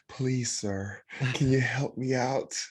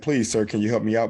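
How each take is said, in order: First: It is said in an airy, fairy-like voice. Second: It is said in his ordinary voice.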